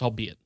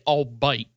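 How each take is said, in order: First: The word is said as three syllables, ending 'be-it'. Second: The word is said as two syllables, ending 'bite'. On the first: This is the standard pronunciation. The speaker calls it right. "it's pronounced albeit" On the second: Someone misread the word. The speaker calls it wrong. "kept pronouncing it albite"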